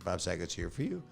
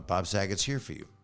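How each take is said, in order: First: It ends with a rising question tune. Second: It ends with a falling statement tune.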